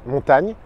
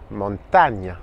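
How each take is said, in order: First: "Montagne" said the French way, nasal on and final gn; GN français. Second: "montagne" as Spanish montaña, ny sound and final a; Ñ espagnol. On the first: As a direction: say "Montagne" as a plain French word. (« Montagne » à la française) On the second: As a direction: say "montagne" lower, in Spanish, ending in nya. (« montagne » dit « montaña », à l'espagnole) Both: Shown as a demonstration. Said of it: "comme G N".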